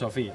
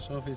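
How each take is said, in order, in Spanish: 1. El acento cae en la segunda sílaba. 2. El acento cae en la primera sílaba. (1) "ese plano es Sofía" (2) "todavía diciendo Sofía"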